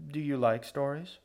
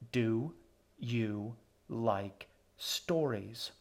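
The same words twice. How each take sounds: First: Said in the usual way. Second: Very slow, word-by-word repeated question; sour, disappointed. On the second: A narrator's reading. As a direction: space out "Do ... you ... like ... stories" with sour patience. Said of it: "sour and disappointed".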